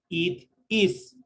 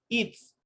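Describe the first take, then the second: First: It is said as two separate words. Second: It is said as one merged syllable. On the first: "La forma larga, ustedes aquí tienen dos tiempos" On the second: "los dos se fusionan y forman un solo golpe de voz"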